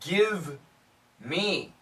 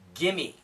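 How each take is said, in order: First: The v sound is clearly pronounced. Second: The v sound is dropped, said fast.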